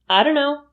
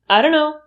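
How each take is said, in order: Both takes have the same delivery.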